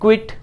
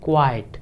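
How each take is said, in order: First: The vowel is a short 'i' sound. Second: The vowel is an 'eye' sound. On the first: The speaker calls it wrong. "बहुत सारे learners कैसे pronounce करते होंगे? क्विट, लेकिन वो क्विट है नहीं" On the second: The speaker calls it right. "उसको हम कहते हैं क्वाइट"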